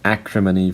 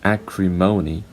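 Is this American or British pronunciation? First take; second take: British; American. First: It has one stressed syllable. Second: It has two stressed syllables. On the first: "acrimony for British" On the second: "acrimony for American English"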